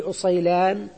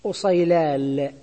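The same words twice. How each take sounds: First: أصيلان with N at the end; original final nun. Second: أصيلال drawn out slowly, ending in L; substituted final lam. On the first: Teacher quoting the word before substitution, أصيلان said with final N. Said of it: "النون". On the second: Teacher showing where substitution happened, أصيلال said slowly with final L. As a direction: stretch أصيلال and finish on lam. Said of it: "فحصل إبدال". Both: Shown as a demonstration.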